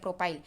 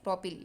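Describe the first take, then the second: First: The last syllable has a long 'ai' sound. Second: The last syllable has a short 'i' sound. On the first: "जो भी आप pronounce करें दोनों सही है" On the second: "जो भी आप प्रोनाउंस करें दोनों सही है"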